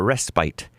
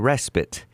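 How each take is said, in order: First: It is said with a British pronunciation. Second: It is said with an American pronunciation.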